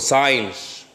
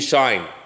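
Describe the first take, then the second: First: It is said like sin with a following sh. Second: It is said as one syllable, like shine. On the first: This is the name used at other universities. "or sin sh" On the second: This is the name used at one university. "it is pronounced in Alexandria University to be shine"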